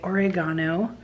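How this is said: It is said with a British pronunciation.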